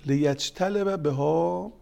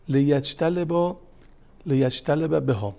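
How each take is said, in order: First: Arabic phrase drawn out slowly; slow recitation. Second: Loud, slow لیجتلب بها, each syllable weighed; slow emphatic recitation. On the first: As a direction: recite لیجتلب بها slowly and clearly. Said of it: "این روایت خیلی مهمه". (آهسته و شمرده خواندن لیجتلب بها) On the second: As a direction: stretch out لیجتلب بها and lean on it. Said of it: "repeats the hadith phrase". (با تأکید و آهسته: لیجتلب بها) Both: Shown as a demonstration.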